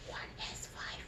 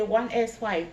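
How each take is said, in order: First: Soft breathy whisper right in the ear. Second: Said in the usual way. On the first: Shown as a demonstration. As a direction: whisper it close, voiceless. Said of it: "I'm going to whisper in your right ear". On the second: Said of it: "What did I say?".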